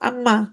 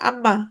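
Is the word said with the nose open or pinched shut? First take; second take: pinched; pinched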